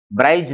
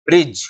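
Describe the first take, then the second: First: "ब्राइज" with a long eye vowel; wrong long-I reading. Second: "ब्रिज" with a short i, pitched lower; correct short I. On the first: Teacher rules out the misreading, "ब्राइज" with eye. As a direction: say "ब्राइज", eye in place of short i. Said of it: "ब्राइज नहीं". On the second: Teacher answers for students, "ब्रिज" with short i. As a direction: say "ब्रिज" short, no eye vowel. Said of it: "इसको क्या बोलेंगे". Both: Shown as a demonstration.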